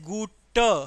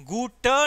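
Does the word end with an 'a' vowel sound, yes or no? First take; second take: yes; yes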